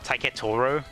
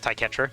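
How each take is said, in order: First: An extra O sound sits between T and R. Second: The T runs straight into the R. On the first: The speaker calls it wrong. "where did you get that O from between the T and the R?" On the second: The speaker calls it right. "my name is meant to be pronounced Taiketro"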